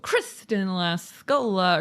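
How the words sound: The name is said with lively excitement.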